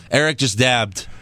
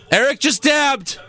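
First: Said in the usual way. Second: High, drawn-out cry of amazement; excited exclamation. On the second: Pretend. Host crowing over his co-host's dab, high and excited. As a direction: crow it slowly, pitch shooting up. Repeats it as a mock announcement.

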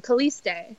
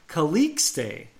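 First: "Caliste" with a plain S, no K; soft S in the middle of "Caliste"; S sound only. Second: "Calixte" with a clear K-S in the middle; pronunciation demo. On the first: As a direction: say "Caliste" as ka-LEES-tay. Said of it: "like, an S sound". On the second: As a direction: say "Calixte" as ka-LEEKS-tay. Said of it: "Yeah, it's Calixte". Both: Shown as a demonstration.

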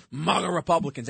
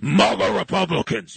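First: Said in the usual way. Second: Mock deep-voiced announcement of maga Republicans; lightly imitating a solemn deep voice; a hint of a booming press secretary. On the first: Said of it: "you know how she loves to talk about maga Republicans". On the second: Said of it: "they say it in a deep voice".

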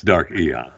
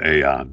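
First: Aeon said "EE-on"; preferred pronunciation. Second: Aeon said "AY-on"; alternative pronunciation. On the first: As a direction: open Aeon with a long "ee" sound. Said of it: "but I'm telling you". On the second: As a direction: open Aeon with a long "ay" sound. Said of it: "Some people pronounce it". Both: Shown as a demonstration.

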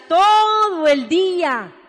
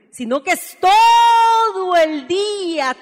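First: "todo el día" repeated slowly and drawn out, stress on "todo"; a slow, insistent echo of "todo el día". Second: Slow, drawn-out "todo el día" with weight on "todo"; stretched emphasis. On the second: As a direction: stretch "todo el día" out slowly, higher and louder. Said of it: "todo el día (repeated)". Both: Shown as a demonstration.

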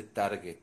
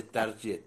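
First: Target con g dura, "targe"; target bien pronunciado. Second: Target con la g final como ʝ, "tarye"; target mal pronunciado. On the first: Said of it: "se dice target". (target pronunciado "targe") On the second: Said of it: "no se dice target". (target pronunciado "tarye") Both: Shown as a demonstration.

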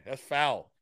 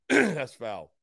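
First: Said in the usual way. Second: Punchier teasing repeat; louder playful scold. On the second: Real, not acted. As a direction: hit it louder the second time.

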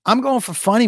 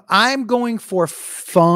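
First: Said in the usual way. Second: FUNNY stretched out long, slow line; slow, deliberate stretch on "funny"; drawn-out emphasis. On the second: Real, not acted. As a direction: draw out the first vowel of "funny". Repeats the line for comic emphasis.

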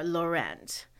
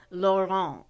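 First: Laurent said the English way, lo-RENT with the t; anglicized Laurent, final t sounded. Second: Laurent said the French way, lo-RAHN, no final t. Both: Shown as a demonstration. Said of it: "I chose a French name".

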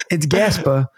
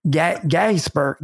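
First: "Gasper" said firmly the usual way; correct pronunciation. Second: "Gasper" slow, stumbling, copying her vowel; trying her pronunciation. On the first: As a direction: give her "Gasper" the right way. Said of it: "And I was like". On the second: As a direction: stretch out "Ga-, Gasper" like a foreign sound. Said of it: "I couldn't even say it". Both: Shown as a demonstration.

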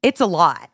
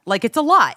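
First: Said in the usual way. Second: Lot said higher and louder, falling; stress on lot. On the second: Real, not acted. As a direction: punch the word lot with a falling tune.

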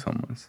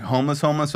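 First: "homeless" dropped much softer, unstressed; offhand, played-down word. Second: "homeless, homeless" said twice at full voice, each one stressed; emphatic doubled word. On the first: Interviewer offering the milder option, offhand soft "homeless". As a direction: toss "homeless" away quietly as the lesser kind. The lesser kind, in contrast. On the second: Interviewer checking how bad it was, emphatic "homeless, homeless". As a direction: press on both "homeless, homeless" to mean truly so. Contrasts real and brief homelessness. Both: Shown as a demonstration.

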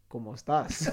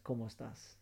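First: Comic copycat Spanish, about to laugh; mimicked parroting. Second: Low-key, soft greeting in Spanish; soft, understated quote; quiet retold greeting. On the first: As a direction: parrot the greeting back for laughs. Mimics Nick parroting the greeting back. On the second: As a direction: say it softly, as a casual hello. Retold stranger greets Nick in Spanish.

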